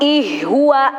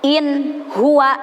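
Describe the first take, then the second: First: The n sound becomes an h sound. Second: The n sound is pronounced fully and clearly. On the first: The speaker calls it wrong. "tidak boleh dibaca ... ih huwa" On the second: The speaker calls it right. "nunnya harus jelas"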